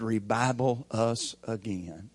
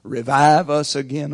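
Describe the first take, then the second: First: "revival us again" said with a b sound, rih-BYE-bul, not revive; tongue-twisted prayer. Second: "Revive us again" with a clear v, rih-VIVE, not revival; correct prayer line. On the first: Retold or imitated. Church member praying to God, mistakenly saying "revival us again". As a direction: pray it wrong as "revival us again", slow and earnest. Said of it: "Didn't you mean to say, 'Revive us again".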